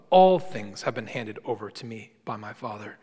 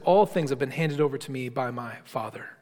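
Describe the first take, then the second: First: "all" punched and held, falling after it; stress on all. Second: Said in the usual way. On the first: Shown as a demonstration. Preacher to congregation, emphatic stress on "all". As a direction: lean hard on "all things" to insist. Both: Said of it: "meant to be quite emphatic".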